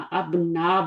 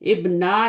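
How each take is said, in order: First: The word begins with an 'a' vowel. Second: The word begins with an 'i' vowel. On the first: The speaker calls it right. "अबना बोलना है" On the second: The speaker calls it wrong. "इब्ना नहीं बोलना"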